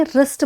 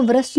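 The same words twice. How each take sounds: First: "रिस्ट" starting directly on the R; silent W. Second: "व्रिस्ट" with a V sound before the R. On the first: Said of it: "रिस्ट बोले". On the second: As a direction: mispronounce "व्रिस्ट" by voicing its first W. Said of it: "तो उसको व्रिस्ट ना बोले". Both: Shown as a demonstration.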